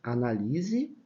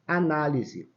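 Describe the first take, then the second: First: Analise pronounced anaLIse, strong LI; stress on LI. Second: Análise with the second syllable strong; stress on NÁ. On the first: Teacher demonstrating the verb, Analise stressed on LI. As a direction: lean on the LI of Analise. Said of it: "que é o verbo". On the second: Teacher showing the shifted tonic syllable, análise stressed on NÁ. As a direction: hit NÁ in análise. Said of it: "eu transfiro a sílaba forte daqui pra cá". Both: Shown as a demonstration.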